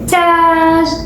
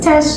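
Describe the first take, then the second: First: The vowel is said long. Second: The vowel is said short. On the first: The speaker calls it right. "So it's long A" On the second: The speaker calls it wrong. "I'm gonna write the short A then I'll recognize it's not just Taj"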